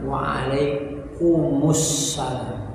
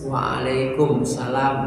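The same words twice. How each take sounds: First: "Waalaikumussalam" drawn out slowly, with the linking -us-; slow, careful "Waalaikumussalam"; correct reply. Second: "Waalaikumsalam" said without the -us- linking syllable; short "Waalaikumsalam" as the wrong version; wrong reply. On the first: Teacher shows the correct "Waalaikumussalam", slow and careful. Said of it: "Bukan "Waalaikumsalam". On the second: Teacher shows the wrong "Waalaikumsalam", said short. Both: Shown as a demonstration.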